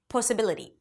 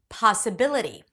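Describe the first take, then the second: First: The stressed vowel is a rounded oh. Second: The stressed vowel is an open back ah. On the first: The speaker calls it wrong. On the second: The speaker calls it right.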